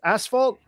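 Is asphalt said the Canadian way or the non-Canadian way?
non-Canadian. It is said with the non-Canadian pronunciation. "but isn't it pronounced asphalt?"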